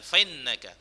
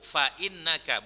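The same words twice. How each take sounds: First: Fa runs on with no glottal stop. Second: A glottal stop follows fa. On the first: The speaker calls it wrong. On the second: The speaker calls it right.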